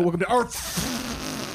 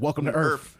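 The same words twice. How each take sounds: First: The final sound of Earth is exaggerated. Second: The final sound of Earth is light. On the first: "He doesn't go" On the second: "he doesn't over fucking pronounce the F. He just says"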